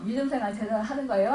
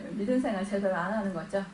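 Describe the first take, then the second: First: 믿음 marked in a fast, rhetorical question; preacher asks the church, 믿음 생활 제대로 하는 거예요, quick; stress on 믿음. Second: Softer, fast answer with a chuckle, 믿음 생활 제대로 안; preacher answers his own question, laughing and soft. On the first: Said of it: "이러면 우리가요". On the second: Soft laughing reply to the congregation. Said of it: "안 하는 거예요?". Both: Shown as a demonstration.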